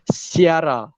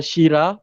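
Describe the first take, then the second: First: It is said as si-ara, with separate vowels. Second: It begins with a sh sound, shira. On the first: The speaker calls it right. "tapi Siara" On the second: The speaker calls it wrong. "bukan Syira"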